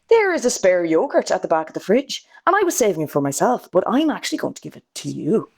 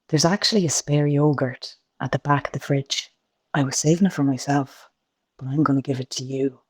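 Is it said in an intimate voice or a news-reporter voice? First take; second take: news-reporter; intimate. First: It is said in a formal news-reporter voice. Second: It is said in a soft, intimate voice.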